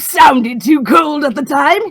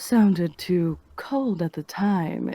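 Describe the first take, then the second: First: It is delivered in a manic mad-scientist way. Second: It is delivered in a low, sultry way. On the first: "mad scientist"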